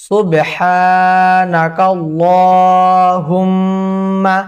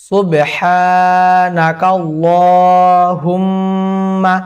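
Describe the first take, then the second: Both takes have the same delivery.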